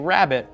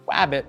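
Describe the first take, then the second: First: The word begins with an R sound. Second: The word begins with a W sound. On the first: The speaker calls it right. "you know they have to say rabbit" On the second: The speaker calls it wrong. "if a kid says wabbit"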